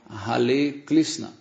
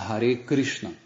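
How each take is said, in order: First: Hare is said with an L sound. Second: Hare is said with an R sound. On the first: The speaker calls it wrong. "Eles falam Hare Krishna" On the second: The speaker calls it right. "eles não conseguem falar Hare Krishna"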